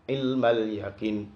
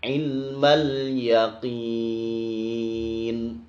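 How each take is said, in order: First: The final vowel is said short. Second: The final vowel is drawn out very long. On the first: The speaker calls it wrong. "tapi dibaca pendek" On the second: The speaker calls it right. "ini dibaca sangat panjang sekali"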